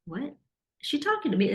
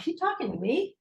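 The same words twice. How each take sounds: First: High, incredulous question; can't believe she means you; surprised disbelief. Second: High, rising disbelief; incredulous. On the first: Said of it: "And I'm like". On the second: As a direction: glance around and ask it in shock. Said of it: "I'm looking around like". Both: Retold or imitated.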